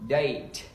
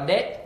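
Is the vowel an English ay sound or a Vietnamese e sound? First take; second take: English ay; Vietnamese e. First: The vowel is the English ay sound. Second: The vowel is the Vietnamese e sound. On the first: The speaker calls it right. "Rất là hay" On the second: The speaker calls it wrong. "nó bị nhầm sang một âm, đó là âm e trong tiếng Việt"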